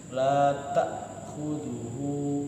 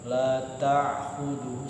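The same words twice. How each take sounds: First: The glottal stop is a slight break. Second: The glottal stop is pressed hard. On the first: The speaker calls it right. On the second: The speaker calls it wrong. "nggak boleh ditekan, salah"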